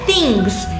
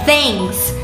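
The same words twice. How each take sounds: First: The vowel is a pure, tense 'ee' sound. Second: The vowel is a lax sound between 'e' and 'i'. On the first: The speaker calls it wrong. "Não é things" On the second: The speaker calls it right. "é things; o i tem quase que um som de e misturado com i"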